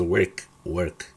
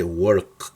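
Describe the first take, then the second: First: "work" with an E vowel, like "werk"; correct pronunciation. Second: "work" drawn out with an O vowel; wrong pronunciation. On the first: Teacher corrects the old mistake, "work" pronounced with E. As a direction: say "work" with E in place of O. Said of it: "No, se dice work". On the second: Teacher shows what not to say, "work" mispronounced with O. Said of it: "No se dice work". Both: Shown as a demonstration.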